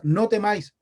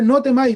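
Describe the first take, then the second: First: Said in the usual way. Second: Higher and louder, driving it home; emphatic preaching; emphatic proclamation. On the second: Acted. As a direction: declare it to the whole church. Preacher stresses the third phrase.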